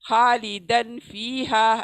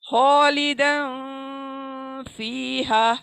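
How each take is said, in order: First: The n sound is pronounced clearly in the mouth. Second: The n sound is hidden and nasalized. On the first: The speaker calls it wrong. "इसको अमूमन सभी क्लियर पढ़ते हैं ... इसको हम ऐसे नहीं पढ़ सकते" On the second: The speaker calls it right. "इसको नाक में लेके जाएंगे, अब नेसल साउंड प्रोड्यूस करेंगे"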